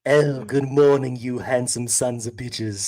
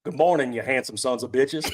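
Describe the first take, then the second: First: Slow, drawn-out put-on voice; better character voice. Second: Put-on lightly done country accent. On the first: Host redoing the country request in a better voice, slow put-on voice. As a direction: stretch the greeting out in a full character voice. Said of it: "do it in a better voice". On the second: Host obliging a chat request, half-hearted country accent. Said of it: "someone's asking for a country accent".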